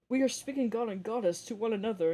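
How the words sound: It is read in a put-on character voice.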